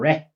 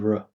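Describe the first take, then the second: First: The syllable has a full, clear vowel. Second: The syllable has a reduced schwa vowel. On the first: The speaker calls it wrong. "we're not going to say re or re" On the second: The speaker calls it right. "It's going to be r"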